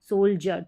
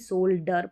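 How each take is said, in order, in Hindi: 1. बीच का व्यंजन 'j' ध्वनि है। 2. बीच का व्यंजन सादा 'd' ध्वनि है। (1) "इसको सोल्जर पढ़ते हैं" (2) "ना कि सोल्डर पढ़ते हैं"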